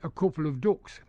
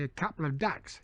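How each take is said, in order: First: It is said in a northern English accent. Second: It is said in a Cockney accent.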